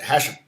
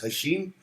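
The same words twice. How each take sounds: First: The vowel after 'sh' is a short 'i'. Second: The vowel after 'sh' is a long 'ee'. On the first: "Or is it" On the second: "the I sounds like a two E's"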